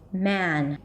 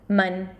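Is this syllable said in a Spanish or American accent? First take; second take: American; Spanish. First: The syllable is said with an American vowel. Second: The syllable is said with a Spanish vowel. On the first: "In American English, it's probably going to turn into a" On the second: "The first syllable in Spanish is man"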